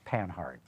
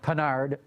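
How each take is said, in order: First: The name is said with an English pronunciation. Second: The name is said with a French pronunciation. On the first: "most English speakers would call it Panhard" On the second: "more like the French way of saying it"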